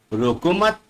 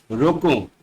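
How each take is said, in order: First: रोको मत joined, rising on मत, then a pause; pause after मत. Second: रोको set apart with a falling tune; pause after रोको. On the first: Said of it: "शब्द के साथ थोड़ा सा रुक गया है". ("रोको मत" साथ बोलकर थोड़ा रुकें) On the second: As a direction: say रोको alone, then pause briefly. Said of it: "शब्द के बाद थोड़ा सा रुक गया है". ("रोको" के बाद थोड़ा सा रुकें) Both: Shown as a demonstration.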